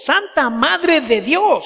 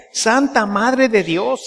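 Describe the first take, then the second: First: "Santa Madre de Dios" much higher, slow and swooping; "Santa Madre de Dios" stretched out, pitched right up; awed emphasis. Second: "Santa Madre de Dios" drawn out slowly, higher pitched; "Santa Madre de Dios" slow and deliberate, first statement; measured prayer line. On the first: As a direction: marvel at every word of "Santa Madre de Dios". Repeats prayer line with amazed emphasis. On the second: Prayer line, then repeated for emphasis. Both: Shown as a demonstration.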